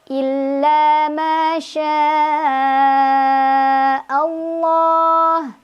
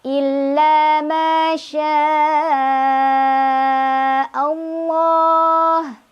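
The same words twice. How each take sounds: The two takes are said the same way.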